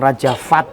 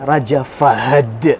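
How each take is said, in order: First: The name is clipped to one short syllable. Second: The name is said fully with two syllables. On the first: The speaker calls it wrong. "bukan Raja Fat loh ya ... salah ... ini bahasa kita" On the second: The speaker calls it right. "Raja Fahad yang betul"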